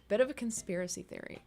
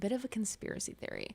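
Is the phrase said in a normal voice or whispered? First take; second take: normal; whispered. First: It is said in a normal speaking voice. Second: It is said in a whisper.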